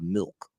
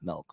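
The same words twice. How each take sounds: First: The vowel is a short 'ih' sound. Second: The vowel is a short 'eh' sound. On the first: The speaker calls it right. "so I gotta remember milk" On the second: The speaker calls it wrong. "It's not an e"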